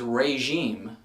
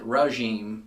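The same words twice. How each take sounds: First: The first syllable has no 'uh' vowel. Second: The first syllable has an 'uh' vowel. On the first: The speaker calls it right. "The word is regime" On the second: The speaker calls it wrong. "like a like an R U H sound"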